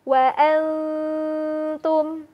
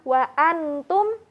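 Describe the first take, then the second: First: The n sound is blurred into a held nasal. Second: The n sound is pronounced clearly and fully. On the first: The speaker calls it right. "menyamarkan bunyi nunnya" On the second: The speaker calls it wrong. "yang terdengar bukan wa antum"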